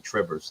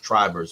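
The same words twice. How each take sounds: First: The first vowel is a short i sound. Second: The first vowel is a long i sound. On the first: The speaker calls it wrong. "everybody calls me Trivers" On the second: The speaker calls it right. "with a long I"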